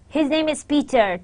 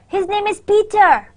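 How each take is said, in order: First: It is said with certainty, falling at the end. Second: It is said with surprise and disbelief. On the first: The speaker is sure it is true. "to convey certainly that his name is Peter. ... So there is a fall" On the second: The speaker does not believe it. "That's kind of a surprised uh, thing that I don't believe you"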